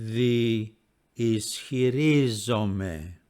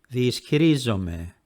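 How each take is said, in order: First: The word is said slowly, vowels slightly apart. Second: The word is said quickly, vowels blending smoothly. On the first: "Speaking slowly again" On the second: "And now speaking at normal speed"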